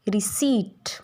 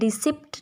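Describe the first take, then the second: First: The p is silent before the final t. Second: The p is sounded before the final t. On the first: The speaker calls it right. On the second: The speaker calls it wrong. "ये रिसिप्ट नहीं होता"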